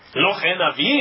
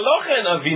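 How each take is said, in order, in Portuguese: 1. A voz sobe no final, como numa pergunta. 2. A voz cai no final, como numa afirmação.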